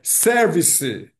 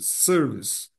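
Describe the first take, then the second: First: The word is said with three syllables. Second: The word is said with two syllables. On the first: The speaker calls it wrong. "A tendência é service" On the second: The speaker calls it right. "acento na primeira"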